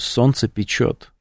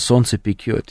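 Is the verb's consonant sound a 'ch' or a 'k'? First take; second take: ch; k. First: The verb is said with a 'ch' sound. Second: The verb is said with a hard 'k' sound. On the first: The speaker calls it right. "Печет, говорю, правильно говорить" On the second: The speaker calls it wrong. "он сказал, солнце пекет"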